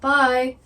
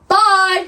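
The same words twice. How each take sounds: First: It is said louder than before. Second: It is said very loudly.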